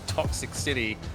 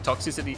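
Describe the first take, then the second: First: It is said as two words, toxic city. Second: It is said as one word, toxicity. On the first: The speaker calls it wrong. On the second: The speaker calls it right.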